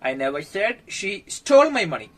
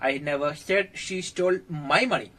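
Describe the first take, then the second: First: The word stole carries the main stress. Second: The word my carries the main stress. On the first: She has the money but did not steal it. "അവളെന്റെ പൈസ മോഷ്ടിച്ചെന്ന് ഞാൻ പറയുന്നില്ല, പക്ഷെ തരാൻ വൈകുന്നു" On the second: She stole someone else's money. "എന്റെ പൈസ മോഷ്ടിച്ചെന്ന് ഞാൻ പറഞ്ഞിട്ടില്ല, പക്ഷെ ആരുടെയോ പൈസ മോഷ്ടിച്ചിട്ടുണ്ട്"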